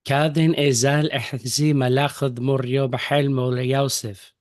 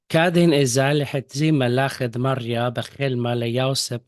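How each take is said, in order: First: It is read in the Western Syriac accent. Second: It is read in the Eastern Syriac accent.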